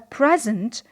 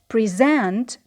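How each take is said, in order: First: The stress is on the first syllable. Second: The stress is on the second syllable. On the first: It is a noun meaning a gift. "when it is a noun... the first syllable, which is stressed" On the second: It is a verb meaning to show or give formally. "when the word was a verb... in the second syllable, which is stressed"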